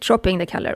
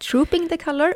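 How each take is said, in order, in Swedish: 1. Frasen uttalas snabbt och slarvigt. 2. Frasen uttalas tydligt och noggrant. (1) "Ibland när man pratar fort så blir det trooping the color. Och det är ju fel" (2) "Vi ska säga trooping the color"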